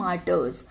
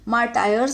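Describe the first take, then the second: First: The second syllable sounds like 'ter'. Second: The second syllable sounds like 'tire'. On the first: The speaker calls it right. "लेकिन इसको बोलते कैसे" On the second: The speaker calls it wrong. "मार्टायर्स मत बोल देना इसको"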